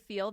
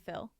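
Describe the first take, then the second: First: It has a long ee vowel. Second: It has a short i vowel, Utah-style.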